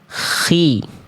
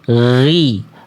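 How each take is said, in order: First: The consonant is a voiceless throaty fricative. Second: The consonant is a voiced throaty fricative. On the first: The speaker calls it wrong. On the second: The speaker calls it right.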